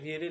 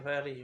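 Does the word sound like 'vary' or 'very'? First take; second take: very; vary. First: The word sounds like 'very'. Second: The word sounds like 'vary'. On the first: The speaker calls it wrong. "এটা ভেরি না" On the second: The speaker calls it right. "এটা ভ্যারি"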